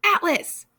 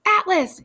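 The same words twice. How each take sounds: First: A second loud, high call; calling out to the sky; yell. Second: Loud, high yell into the sky; bellowing a name into the stars. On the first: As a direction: shout the name again, still loud. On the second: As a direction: call out across the universe. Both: A narrator's reading. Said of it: "he yelled".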